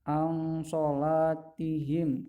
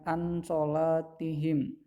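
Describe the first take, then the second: First: The n sound is concealed into a nasal hum. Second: The n sound is pronounced fully and clearly. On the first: The speaker calls it right. "dibaca samar-samar" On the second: The speaker calls it wrong.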